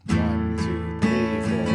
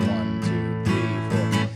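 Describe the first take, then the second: No difference in how they are said.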